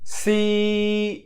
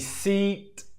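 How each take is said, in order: First: The vowel is held for about two seconds. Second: The vowel is said short and quickly. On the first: The speaker calls it right. "You do it like this. ... that is correct pronunciation" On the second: The speaker calls it wrong. "The bad pronunciation would be seat"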